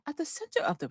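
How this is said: It is said in a put-on British accent.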